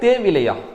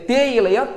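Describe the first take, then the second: First: The parts are joined with a v sound. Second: The parts are joined with a y sound. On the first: The speaker calls it wrong. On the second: The speaker calls it right.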